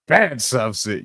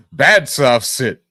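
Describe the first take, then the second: First: Said in the usual way. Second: Slow, louder scold like training a dog; slow mock scolding. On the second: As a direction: drag it out like scolding a pet.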